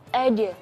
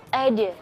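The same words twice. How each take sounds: No difference in how they are said.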